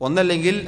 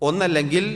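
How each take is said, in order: Both takes have the same delivery.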